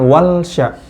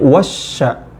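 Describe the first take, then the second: First: The L is pronounced before the sh sound. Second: The L merges into a doubled sh sound. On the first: The speaker calls it wrong. "bukan wal sya" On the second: The speaker calls it right. "tapi wasya"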